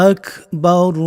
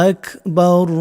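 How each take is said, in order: The two takes are said the same way.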